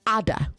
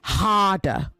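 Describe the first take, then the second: First: A consonant sound is dropped from the word. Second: Every consonant sound in the word is pronounced. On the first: The speaker calls it wrong. "you have to pay attention to elision" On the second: The speaker calls it right. "you say harder"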